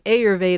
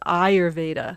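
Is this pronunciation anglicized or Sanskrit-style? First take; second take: anglicized; Sanskrit-style. First: It is said in an anglicized way. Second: It is said in a Sanskrit-style way. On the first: The speaker calls it wrong. "in my introduction where I say Ayurveda" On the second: The speaker calls it right. "the proper pronunciation is Ayurveda"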